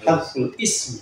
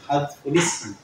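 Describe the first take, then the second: First: The second word starts with a separate glottal stop. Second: The two words run together without a glottal stop. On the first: The speaker calls it wrong. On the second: The speaker calls it right. "benernya begitu"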